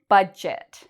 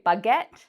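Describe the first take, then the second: First: The middle consonant is a soft j sound. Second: The middle consonant is a hard g sound. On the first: The speaker calls it right. "we don't really pronounce the D sound, and the G becomes a J" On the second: The speaker calls it wrong. "I hear many people say baguette. That's not how we pronounce it"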